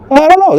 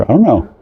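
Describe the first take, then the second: First: "I don't know" jumped very high and a bit louder; high squeaky repeat. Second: Said in the usual way. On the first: Real, not acted. Shrugging off the soldiers, "I don't know" squeaked high.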